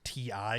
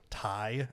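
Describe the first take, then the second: First: It is spelled out as two letters. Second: It is said as one word, like tie. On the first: The speaker calls it wrong. "which everybody through human history has pronounced T I" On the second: The speaker calls it right. "you're supposed to pronounce it Ti, as in titanium"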